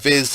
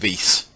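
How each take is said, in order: First: The word is short and ends in a z. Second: The word has a longer vowel and ends hissing. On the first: The speaker calls it wrong. "I've been calling it Viz" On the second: The speaker calls it right. "It's apparently Vise"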